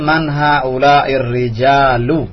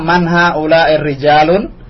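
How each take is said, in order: First: The last word ends without an n sound. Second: The last word ends with an added n sound. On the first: The speaker calls it right. "Yang betul man haulai rijalu" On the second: The speaker calls it wrong. "tadi antum bilang man haulai rijalun"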